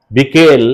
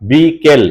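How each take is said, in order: First: Said in the usual way. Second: "বিকেল" as long "bi", then "kel"; syllable split. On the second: Shown as a demonstration. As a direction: separate and stretch the two syllables of "বিকেল". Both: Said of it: "উচ্চারণটা আমাকে কানে শুনতে হবে".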